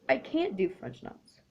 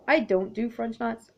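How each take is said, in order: First: Can't leaned on, falling at the end; weight on can't, then let it drop; stress on can't. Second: Said in the usual way. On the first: Real, not acted. Admitting to viewers she can't, stress on can't.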